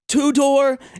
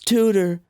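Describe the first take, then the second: First: It is said like the two words 'two door'. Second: It is said as the single name 'Tudor'. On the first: The name is mangled on purpose as a joke. The speaker calls it wrong. "I wanted to pronounce it like that" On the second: This is how the brand name really sounds. The speaker calls it right. "It's Tudor"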